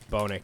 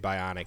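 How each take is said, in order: First: It is said like 'bonic', with two syllables. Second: It is said like 'bionic', with three syllables. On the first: The speaker calls it right. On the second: The speaker calls it wrong. "I always mispronounce this. I always say Bionic, and it's not right"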